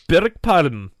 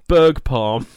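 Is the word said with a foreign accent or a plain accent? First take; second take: foreign; plain. First: It is said with a put-on foreign accent. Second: It is said plainly without a put-on accent.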